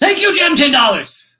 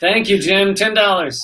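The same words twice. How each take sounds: First: It is said in an angry tone. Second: It is said in a calm, neutral tone.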